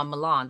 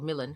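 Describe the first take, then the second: First: Milan with second syllable like "lawn"; Milan, open "aw" in the last syllable; alternate pronunciation. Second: Milan with first syllable like "mill"; Milan, short "i" up front; alternate pronunciation. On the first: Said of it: "or Milan, however you wanna pronounce it". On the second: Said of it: "however you wanna pronounce it". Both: Shown as a demonstration.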